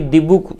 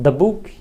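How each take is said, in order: First: The word 'the' is said with a long 'ee'. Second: The word 'the' is said with a short 'uh'. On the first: The speaker calls it wrong. "अब यह नहीं कि दी book" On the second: The speaker calls it right. "इसका उच्चारण द करते हैं"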